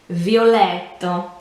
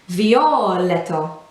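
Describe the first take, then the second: First: The 'let' syllable is clearly emphasized. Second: The 'let' syllable is not given emphasis. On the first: The speaker calls it right. "It needs to be violetto" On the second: The speaker calls it wrong. "as opposed to saying perhaps violetto, you know, where letter is just the second half"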